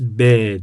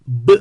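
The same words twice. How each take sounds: First: The consonant is followed by an e vowel. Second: The consonant is said alone without a vowel. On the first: "B diyoruz" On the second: "B demiyoruz genelde"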